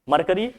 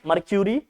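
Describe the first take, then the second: First: The second syllable is a plain 'ker' sound. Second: The second syllable is a 'kyoo' sound.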